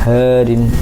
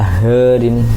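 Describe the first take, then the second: The two takes are said the same way.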